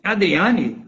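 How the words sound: The voice sounds harsh and slightly scratchy. The speaker is not glad to see the person. "já estou demonstrando que... não estou feliz em vê-la aqui"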